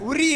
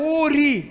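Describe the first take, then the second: First: The first vowel is short. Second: The first vowel is long. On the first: The speaker calls it wrong. "உரி இல்ல" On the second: The speaker calls it right.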